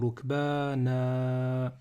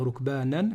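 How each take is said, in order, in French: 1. Le mot finit par un son 'a' long. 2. Le mot finit par un son 'n'. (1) "mais je vais dire rukbana" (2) "Je ne vais pas dire rukbanan"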